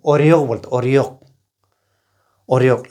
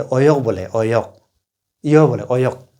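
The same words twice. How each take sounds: First: ओरियोक with a clear r; with the r sound. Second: ओयोक, with no r; dropping the r. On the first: (र के साथ ओरियोक) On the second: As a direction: say ओयोक, r left out. (र छोड़कर ओयोक) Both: Shown as a demonstration. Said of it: "लेकिन जो र नहीं बोलता".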